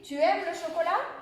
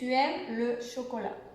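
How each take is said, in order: First: The voice rises at the end like a question. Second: The voice falls at the end like a statement. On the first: It asks a question. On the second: It states a fact. "si on enlève le point d'interrogation"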